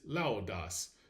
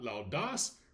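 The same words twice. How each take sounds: First: The stress is on the first syllable. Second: The stress is on the second syllable. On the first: The speaker calls it right. "You will stress that first syllable" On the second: The speaker calls it wrong. "It is not laudas"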